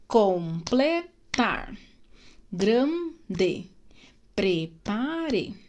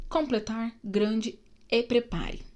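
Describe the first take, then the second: First: "Completar", "Grande", "Prepare" very slowly, each syllable apart. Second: Said in the usual way. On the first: Shown as a demonstration. Teacher showing pupils syllable separation, "Completar", "Grande", "Prepare" split syllable by syllable. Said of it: "observe a separação de sílabas dessas palavras". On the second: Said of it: "observe a separação de sílabas".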